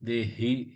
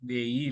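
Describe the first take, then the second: First: The middle consonant is a breathy throat h. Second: The middle consonant is a y sound. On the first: The speaker calls it right. "ஹி தொண்டையிலேருந்து வரணும்" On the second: The speaker calls it wrong. "தேயி இல்ல"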